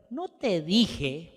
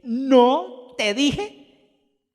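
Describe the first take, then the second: First: Said in the usual way. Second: Loud, higher, very drawn-out no te dijeee; exasperated told-you-so. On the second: Acted. King Acab telling Josafat he was right, drawn out and smug. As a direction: stretch ¿No te dije? slowly with smug vindication. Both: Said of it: "vuelvo a leerlo".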